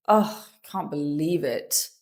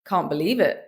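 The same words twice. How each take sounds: First: Sigh, then low groaning disbelief; frustrated groan. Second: Dry, unmoved British sarcasm; deadpan sarcasm. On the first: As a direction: groan it out in frustration, pitch dropped. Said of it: "Say it with a groan". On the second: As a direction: say it deadpan, with no reaction at all. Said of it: "Say it deadpan". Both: Shown as a demonstration.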